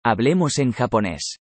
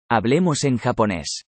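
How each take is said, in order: Both takes have the same delivery.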